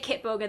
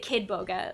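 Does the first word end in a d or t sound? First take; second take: t; d. First: The first word ends with a t sound. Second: The first word ends with a d sound. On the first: The speaker calls it right. "They never say it right. They never say Kit Boga" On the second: The speaker calls it wrong. "They always say Kid Boga"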